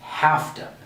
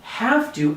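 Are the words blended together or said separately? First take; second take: blended; separate. First: The two words are blended into one. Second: The two words are said separately and fully. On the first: "we say have to" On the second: "Instead of saying have to"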